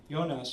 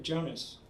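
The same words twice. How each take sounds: First: Jonas said the German way, YO-nahss; corrected pronunciation. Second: Jonas said the English way, with a J as in jump; mispronounced name. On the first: Woman correcting the visitor's "Jonas" to YO-nahss, corrected pronunciation. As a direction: begin "Jonas" with a Y sound. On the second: Visitor naming a friend with an English J in "Jonas", mispronounced. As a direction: say "Jonas" as JOE-nuss. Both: A narrator's reading. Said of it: "she corrected me".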